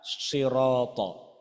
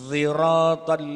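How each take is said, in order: First: It begins with a heavy, emphatic s sound. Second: It begins with a sound between s and z. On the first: "Yang pertama dibaca pakai sod" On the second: "yang ketiga antara sin dengan dha"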